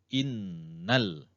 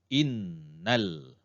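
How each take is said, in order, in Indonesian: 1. Bunyi sengau n ditahan selama dua hitungan. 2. Bunyi sengau n ditahan selama dua hitungan.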